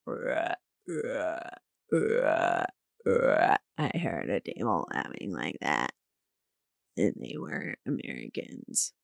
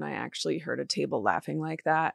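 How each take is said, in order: First: Much lower, softer dopey voice; mock dumb self. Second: Said in the usual way. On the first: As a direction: repeat yourself like a slow oaf. Mocks herself in dumb voice.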